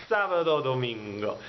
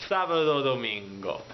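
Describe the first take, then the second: Both takes have the same delivery.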